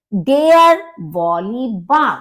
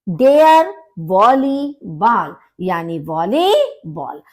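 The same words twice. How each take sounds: First: वॉलीबॉल with "baal" at the end; German pronunciation. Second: First वॉलीबॉल "baal", second "bol"; German then English. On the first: Teacher contrasts German and English ball. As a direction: say the German "baal", not "bol". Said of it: "यहाँ बॉल और यहाँ पर बॉल बोला जाता है". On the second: Teacher says German word then English word. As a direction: switch the vowel between the two वॉलीबॉल. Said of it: "यहाँ पर बॉल बोला जाता है". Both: Shown as a demonstration.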